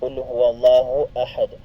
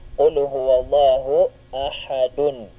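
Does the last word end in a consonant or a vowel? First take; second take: consonant; vowel. First: The last word ends on a bare d sound. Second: The last word ends with an added vowel and n. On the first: "hindi bigkasin ang patinig na nakalagay sa dal" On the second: "Ang kanya pong patinig ay dhammatan. Kung ating bibigkasin"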